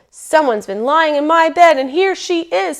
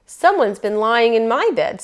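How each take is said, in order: First: High, loud bear cub voice; squeaky bear cub. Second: Lightly voiced mama bear, middle register; a hint of mother bear, only slightly raised. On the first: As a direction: squeak as big as a little cub can. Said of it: "in the biggest voice that he had". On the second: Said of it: "in her middle voice". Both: A narrator's reading.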